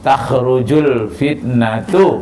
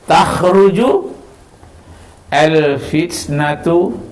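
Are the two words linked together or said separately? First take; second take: linked; separate. First: The two words are joined into one flow. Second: The two words are said separately.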